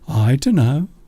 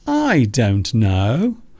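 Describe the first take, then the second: First: The words blur together into 'dunno'. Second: Each word is said fully and separately. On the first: "people will say, I dunno" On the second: "It is another way of saying, I don't know"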